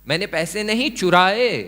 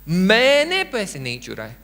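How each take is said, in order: First: The word चुराए carries the stress. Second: The word मैंने carries the stress. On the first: The money was borrowed, not stolen. "मैंने बोरो किया, कुछ और किया" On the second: Someone else stole the money. "यानी किसी और ने पैसे चुराए"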